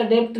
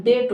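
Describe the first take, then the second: First: डेप्ट as dept; sounded middle consonant. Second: डेट as det, straight to T; silent B. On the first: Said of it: "डेप्ट नहीं होता". (डेप्ट में प साफ़) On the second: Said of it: "बी silent". (डेट, बी मूक) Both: Shown as a demonstration.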